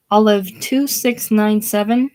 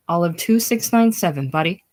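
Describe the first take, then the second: First: Louder, higher voice with rising end; hurried phone answer. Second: Said in the usual way. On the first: Acted. Bodhi rushing to the ringing phone, urgent raised voice. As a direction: call the number out high into the receiver. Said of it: "rushing to the phone".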